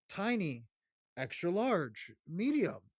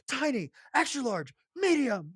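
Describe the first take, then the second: First: It is said calmly and quietly. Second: It is screamed very loudly.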